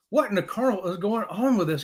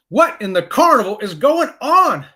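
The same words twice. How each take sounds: First: Said in the usual way. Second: Slow, loud, exasperated demand; high, drawn-out comic exasperation; mock outrage. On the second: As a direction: punch out each word in bafflement. Mock outrage at card confusion.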